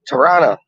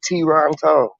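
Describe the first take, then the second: First: The second T sound is dropped. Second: Both T sounds are clearly pronounced. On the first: "Normally people like they don't pronounce the T's" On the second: "I never said it like that before"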